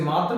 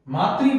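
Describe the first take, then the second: First: मातृ misread as 'maatar'; गलत उच्चारण. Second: मातृ ending in a clear 'tri'; सही उच्चारण. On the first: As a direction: say मातृ as 'maa-tar', losing the final 'ri'. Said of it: "मातृ नहीं पढ़ेंगे". (मातृ को 'मातर' जैसा बोलें) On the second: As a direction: say मातृ as 'maa-tri', the ऋ sounded 'ri'. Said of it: "मातृ पढ़ेंगे इसे". (मातृ के अंत में साफ़ 'त्रि' बोलें) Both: Shown as a demonstration.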